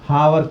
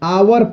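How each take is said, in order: First: The word starts with an h sound. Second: The word starts with a vowel sound. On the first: The speaker calls it wrong. "बहुत लोग हावर कह देगा" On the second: The speaker calls it right. "आवर पढ़ते हैं"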